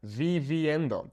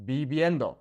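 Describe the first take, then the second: First: Viviendo with hard English V's; mispronounced viviendo, English V not B; incorrect V sound. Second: Viviendo with both V's as soft B's; gentle Spanish B in place of each V in viviendo; soft B sound. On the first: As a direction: bite both V's in viviendo as in "very". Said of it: "That's incorrect". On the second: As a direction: say viviendo like "bee-byendo". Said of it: "kind of that soft B sound". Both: Shown as a demonstration.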